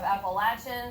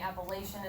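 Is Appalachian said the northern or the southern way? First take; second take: southern; northern. First: The word is said the southern way. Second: The word is said the northern way.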